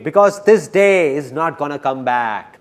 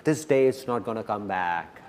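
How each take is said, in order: First: Loud, slow emphatic declaration. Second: Lower, softer repeat of a point; softened echo. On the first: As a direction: drive it home slowly and louder. Emphatic line repeated for effect. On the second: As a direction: let it sink in, low and soft. Softer echo of emphatic line. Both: Real, not acted.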